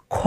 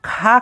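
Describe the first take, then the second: First: "খ" with a rounded o vowel; অ-কার উচ্চারণ. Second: "খা" with an open aa vowel; ভুল আ-কার উচ্চারণ. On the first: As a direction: say "খ" as kho, never kha. ("খ" অ-কার দিয়ে গোল করে) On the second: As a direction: say "খা" as khaa, not kho. ("খা" আ-কার দিয়ে খোলা স্বরে) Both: Shown as a demonstration. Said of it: "খা কিন্তু পড়বো না".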